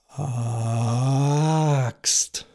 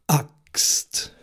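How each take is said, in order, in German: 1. Der Vokal beginnt weich, ohne Glottisschlag. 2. Der Vokal beginnt mit einem scharfen Glottisschlag. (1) "Ohne diesen Glottisschlag wäre das dann" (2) "lasse schlagartig die Stimmbänder los. Es entsteht ein kleines Geräusch"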